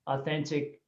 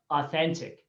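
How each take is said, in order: Both takes have the same delivery.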